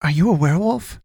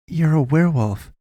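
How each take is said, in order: First: High-pitched wondering question, rising at the end. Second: Higher-pitched statement, falling at the end; pressing. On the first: Boy to the wounded man, wondering. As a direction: ask it high, voice lifting in wonder. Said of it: "Kalen wondered". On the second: Boy challenging the wounded man, pressing. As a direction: press the point in a raised pitch. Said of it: "Kalen pressed". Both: A narrator's reading.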